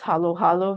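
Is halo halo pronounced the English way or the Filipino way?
Filipino. It is said with a Filipino pronunciation. The speaker calls it right. "the correct pronunciation is"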